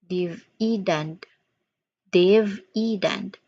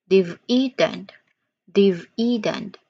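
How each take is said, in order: No difference in how they are said.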